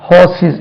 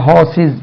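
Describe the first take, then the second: The two takes are said the same way.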